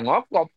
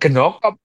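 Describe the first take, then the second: First: The word begins with a single ng sound. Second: The word begins with g, a vowel, then n. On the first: The speaker calls it right. "Ng atau N G itu satu konsonan" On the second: The speaker calls it wrong. "bukan genokop gitu"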